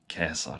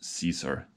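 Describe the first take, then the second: First: The name begins with a hard K sound. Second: The name begins with a soft S sound. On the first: This is how the name was originally pronounced. "I think it was something like uh, Caesar" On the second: This is the familiar, best-known form of the name. "I'll go with Julius Caesar just for convenience"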